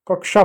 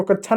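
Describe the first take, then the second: First: कक्षा with a clear "k-sh", "kaksha"; कक्षा as "kak-sha", no "chh"; correct pronunciation. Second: कक्षा mispronounced as "kachchha"; कक्षा the mistaken way, "kach-chha"; wrong pronunciation. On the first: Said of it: "कक्षा पढ़ते हैं". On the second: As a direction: say कक्षा with "chh" for "ksh". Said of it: "इसको कक्षा नहीं पढ़ते हैं". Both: Shown as a demonstration.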